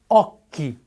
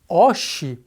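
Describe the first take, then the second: First: The middle consonant is a hard k sound. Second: The middle consonant is a soft sh sound. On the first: The speaker calls it right. "em italiano é lido como occhi" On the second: The speaker calls it wrong. "se você não conhecesse essa informação e lesse a palavra como oshi"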